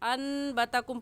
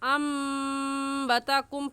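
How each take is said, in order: First: The sound before b is an n. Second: The sound before b is an m. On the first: The speaker calls it wrong. "हमज़ा को नून के साथ मिलाकर अनबतकुम पढ़ना गलत है" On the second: The speaker calls it right. "इस हमज़ा को उस मीम के साथ मिलाकर अम्बतकुम पढ़ेंगे"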